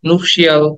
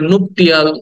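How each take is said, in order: First: The word ends with a 'shee-al' sound. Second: The word ends with a 'tee-al' sound. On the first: "নুপশিয়াল, অনেক কিছুই বলি" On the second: "আমরা এটাকে নুপটিয়াল"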